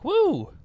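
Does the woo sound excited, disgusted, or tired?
excited. It sounds excited and cheerful.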